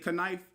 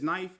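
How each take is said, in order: First: The K at the start is pronounced. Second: The K at the start is silent. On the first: The speaker calls it wrong. "Like you wouldn't say knife" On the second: The speaker calls it right. "It's just knife"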